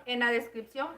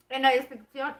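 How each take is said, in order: First: Said in the usual way. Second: Talking while eating; words round a bite of food; mouth full. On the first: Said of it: "discúlpenme". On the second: Real, not acted. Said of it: "con los brackets no puedo hablar muy bien y al mismo tiempo comer".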